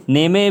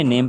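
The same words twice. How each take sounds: First: नेमे in two syllables, "nay-may", pitched high; wrong reading, final e sounded. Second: नेम as one syllable ending on m; correct silent-e reading. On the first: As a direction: add an "ay" after the m in नेमे. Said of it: "भी नहीं पढ़ते हम". (नेमे ऊँचे सुर में, आख़िर में "ए") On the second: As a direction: close नेम on the m, in the usual pitch. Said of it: "नेम पढ़ते हैं". (नेम में आख़िरी ई silent) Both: Shown as a demonstration.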